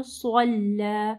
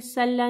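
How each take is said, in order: First: सल्ला slow, with a thick heavy स्वाद; drawn-out heavy स्वाद in सल्ला; heavy swad. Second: सल्ला with a light स; wrong reading demo. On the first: Teacher demonstrating the heavy स्वाद slowly. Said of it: "स्वाद को heavy पढ़ना है". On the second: Teacher showing the wrong thin स. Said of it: "सल्ला नहीं पढ़ना". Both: Shown as a demonstration.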